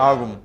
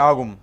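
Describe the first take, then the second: The two takes are said the same way.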